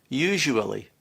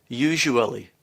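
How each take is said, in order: The two takes are said the same way.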